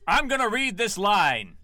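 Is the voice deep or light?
deep. The voice is deeper, with more bass. The speaker calls it right.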